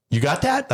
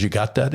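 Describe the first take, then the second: First: Much higher questioning rise; imitated impatient check. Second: Said in the usual way. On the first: Partner coming back after five minutes, impatient. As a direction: imitate her checking up, pitched well above your own voice. Partner returns, retold more insistent.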